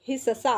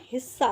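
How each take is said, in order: First: हिस्सा with a full middle sa, hi-sa-saa; पूरा स. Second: Said in the usual way. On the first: Shown as a demonstration. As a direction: say हिस्सा in three syllables, hi-sa-saa. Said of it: "ये आपका difference है इनमें". (हिस्सा में पूरा स) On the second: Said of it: "हमें लिखना है हिस्सा".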